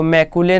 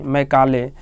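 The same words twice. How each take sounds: First: "मैकुले" with an oo in the middle, me-koo-le; wrong reading. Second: "मैकाले" with a long aa in the middle, me-kaa-le; correct reading. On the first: Teacher showing students the misreading to avoid, wrong reading. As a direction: say "मैकुले", middle syllable koo instead of kaa. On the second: Teacher giving students the name to read, correct reading. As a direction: say "मैकाले", middle syllable kaa instead of koo. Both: Shown as a demonstration. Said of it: "इसको मैकुले नहीं पढ़ना है".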